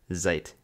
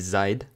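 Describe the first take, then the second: First: The word ends with a voiceless t sound. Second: The word ends with a voiced d sound. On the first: The speaker calls it right. "она произносится как «т», а не «д»" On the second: The speaker calls it wrong. "Не «seid»"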